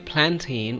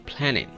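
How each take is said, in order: First: The middle t is clearly released. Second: The n is stressed and the t held back. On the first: The speaker calls it wrong. "Rather than we say" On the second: The speaker calls it right. "we should say plantain. Like mountain"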